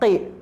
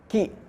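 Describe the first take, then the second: First: It starts with a deep throat q sound. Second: It starts with a light front k sound. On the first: The speaker calls it wrong. "bukan qi" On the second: The speaker calls it right. "bukan qi tapi ki"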